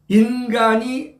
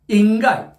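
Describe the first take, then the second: First: The n sound before the last syllable is pronounced. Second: The n sound before the last syllable is dropped. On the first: "인간이 안 된다는 거지" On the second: "그렇게 인간을 꼭 인가이 이러더라고요"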